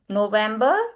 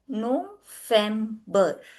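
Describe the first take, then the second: First: It begins with a 'v' sound. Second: It begins with an 'f' sound. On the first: The speaker calls it wrong. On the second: The speaker calls it right. "V is the f sound"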